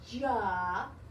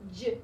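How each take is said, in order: First: The consonant is followed by an added vowel. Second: The consonant is said alone with no vowel. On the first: The speaker calls it wrong. "No ja" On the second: The speaker calls it right. "No sounds after it"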